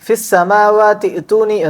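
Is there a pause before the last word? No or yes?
no. The words run together with no break. "ചേർത്തി ഓതുമ്പോൾ"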